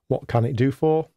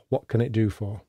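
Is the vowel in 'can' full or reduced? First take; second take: full; reduced. First: The vowel in can is a full vowel. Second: The vowel in can is reduced to schwa. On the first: "So I can say"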